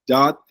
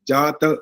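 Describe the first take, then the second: First: The final t is held without release. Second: The final t is fully released with a vowel. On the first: The speaker calls it wrong. "जबान touch रहती है ऊपर" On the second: The speaker calls it right. "अब जबान से बाहर आ गई"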